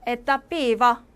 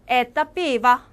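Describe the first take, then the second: First: Said in the usual way. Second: 에떠 삐바 slower and louder for repetition; slow loud model. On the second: Shown as a demonstration. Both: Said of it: "똑같이 따라해주세요".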